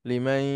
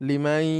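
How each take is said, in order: The two takes are said the same way.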